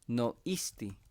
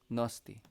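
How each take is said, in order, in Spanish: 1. Las dos vocales se mantienen como sonidos separados. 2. Las vocales se unen en una O larga. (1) "En la Huasteca" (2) "cuando hay dos vocales aquí, prefieren nomás mantener uno... con la O más larga"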